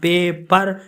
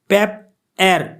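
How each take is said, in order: First: The word is split after the vowel: pa-per. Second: The word is split after the p: pap-er. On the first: The speaker calls it right. "Second one पेपर is correct है" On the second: The speaker calls it wrong. "पेप एर जो है ये गलत word है"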